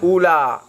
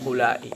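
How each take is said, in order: First: The word ends on a plain 'a' vowel. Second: The word ends with a glottal stop and 'i'. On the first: This is the Tamim form, with a shortened ending. "di sisi ulama tamim lafalnya adalah ula" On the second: This is the Hijaz form, with a lengthened ending. "di sisi ulama hijaz lafalnya adalah ulai"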